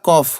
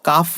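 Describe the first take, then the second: First: The vowel sounds like a rounded 'o'. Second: The vowel sounds like an open 'a'. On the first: The speaker calls it right. "এটা কফ" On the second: The speaker calls it wrong. "কাফ না।"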